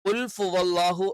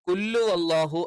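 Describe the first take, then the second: First: An f sound replaces the h after qul. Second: The h is dropped and qul runs into it. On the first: "എന്നും ആയി പോകാൻ പാടില്ല" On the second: "എന്നായി പോകാൻ പാടില്ല"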